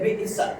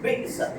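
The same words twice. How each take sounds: First: A glottal catch breaks the word after 'bi'. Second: The same.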